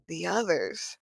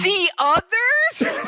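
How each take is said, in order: First: It is said more quietly. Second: It is said loudly.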